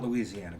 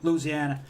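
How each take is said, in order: First: It is said the common outsider way. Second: It is said the local way. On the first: The speaker calls it wrong. "It's not Louisiana" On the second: The speaker calls it right. "but Louisiana"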